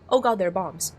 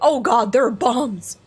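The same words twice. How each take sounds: First: It is said flatly, without urgency. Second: It is said urgently, with dramatic panic. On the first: The speaker calls it wrong. "you don't say like" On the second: The speaker calls it right. "You say"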